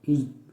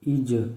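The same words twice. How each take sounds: First: The final consonant stops flat without an echo. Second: The final consonant is released with an echoing bounce. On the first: "बग़ैर कलकला के" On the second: "कलकला के साथ"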